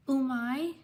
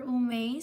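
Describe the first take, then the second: First: "Umai" said oo-MY, rising at the end; tentative pronunciation. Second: "Umei" said oo-MAY, rising at the end; alternative pronunciation. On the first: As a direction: try "Umai" with an eye sound at the end. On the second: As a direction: offer "Umei" with an ay sound at the end. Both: Real, not acted. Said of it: "Sorry if I mispronounced your name".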